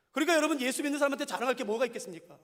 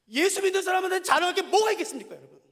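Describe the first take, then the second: First: Said in the usual way. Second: Louder, higher rhetorical question; louder emphatic repeat. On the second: Real, not acted. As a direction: press the question harder. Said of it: "repeats question louder".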